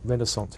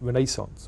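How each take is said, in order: First: It is said with an American pronunciation. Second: It is said with a non-American pronunciation.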